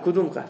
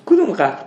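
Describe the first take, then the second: First: Said in the usual way. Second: کدوم قبر punched louder and higher; demanding کدوم قبر with rising force; emphatic repeat. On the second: Real, not acted. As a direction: hammer the question کدوم قبر home to the class.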